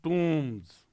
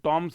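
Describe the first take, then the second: First: The vowel is a long oo sound. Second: The vowel is a short o sound. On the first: The speaker calls it right. "इसको भी अपन pronounce करते हैं टूम्स" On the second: The speaker calls it wrong. "ये टॉम्स नहीं है बाबू"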